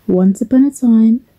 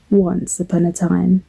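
First: Lilting, lifted storyteller's opening; storybook opening. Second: Said in the usual way. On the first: Acted. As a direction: open a bedtime tale with a flourish. Begins the story after "here goes.

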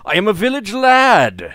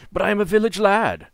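First: High, loud heroic boast; proud hero voice. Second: Higher, lightly heroic boast; a hint of proud hero. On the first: Acted. Proudly declaring role. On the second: Repeats heroic declaration.

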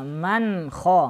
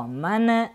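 First: "ман ха" with a clear n and no ghunna. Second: "Ман" with a little vowel after the n; bouncing, released n ending "Ман". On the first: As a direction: sound the н cleanly, then "ха". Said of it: "Нужно". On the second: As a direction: wrongly let go of н in "Ман", like "мане". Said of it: "отпускать тоже нельзя". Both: Shown as a demonstration.

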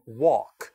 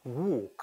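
First: Walk with an open "wawk" vowel; American pronunciation. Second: Walk with a rounded, narrow "wohk" vowel; British pronunciation. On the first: Teacher modelling for students, American open-mouthed walk. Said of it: "미국식 발음은". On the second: Teacher echoing the recording, British rounded walk. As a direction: round the lips tightly on walk. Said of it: "영국식으로는". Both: Shown as a demonstration.

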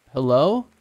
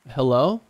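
First: Calling down the well, louder but unsure; a raised, hesitant hello into the dark. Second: Unsure hello into the dark; first hesitant call. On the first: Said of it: "I called out again louder, but still as hesitant". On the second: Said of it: "I called out again louder". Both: A narrator's reading.

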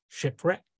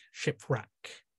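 First: Shipwreck said with a rising tune. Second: Shipwreck repeated much softer, falling. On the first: Neptune listing wrecks, rising Shipwreck. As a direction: lift the end of Shipwreck. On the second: Neptune echoing the wreck, soft falling shipwreck. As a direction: drop shipwreck down to a murmur. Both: Acted. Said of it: "in the voice of Neptune".

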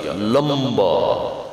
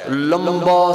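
First: لمبا stretched very slowly, every sound held long; drawn-out emphasis. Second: Said in the usual way. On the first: Shown as a demonstration. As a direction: drag out لمبا to show how long. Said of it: "لمبا سجدہ کیا".

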